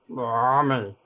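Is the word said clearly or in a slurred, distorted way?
slurred. The word is said slurred and distorted. The speaker calls it right. "because it only has half a mouth"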